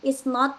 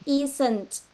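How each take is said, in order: First: It is said as two separate full words. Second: It is said as one contracted word. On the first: "kita gabungkan" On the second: "Is not jadi isn't"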